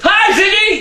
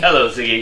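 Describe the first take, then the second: First: It is said loudly, with great enthusiasm. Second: It is said flatly, without enthusiasm.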